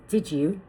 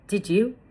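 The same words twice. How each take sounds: First: The d and y blend into a j sound. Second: The d and y sounds stay separate.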